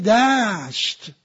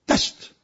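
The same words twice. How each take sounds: First: The vowel is stretched out long. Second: The vowel is said short and clipped. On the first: The plain seems vast and wide. The speaker calls it right. "ولی وقتی میگه دشت" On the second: The plain seems tiny. The speaker calls it wrong. "یه سانتی متر به نظر میسه"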